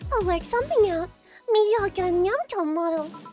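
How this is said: It is said in a put-on cutesy uwu voice.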